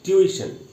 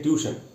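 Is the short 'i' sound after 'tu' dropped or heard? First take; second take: heard; dropped. First: The short 'i' sound after 'tu' is heard. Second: The short 'i' sound after 'tu' is dropped. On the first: The speaker calls it right. "ट्यू के बाद छोटी ई का भी एक sound है" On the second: The speaker calls it wrong. "अक्सर हम लोग इसको साइलेंट करके बोलते हैं"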